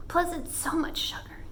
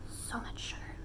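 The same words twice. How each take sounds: First: Said in the usual way. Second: Hushed whisper about the sugar. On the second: Acted. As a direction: whisper it like a guilty secret. Whispered repeat of the words.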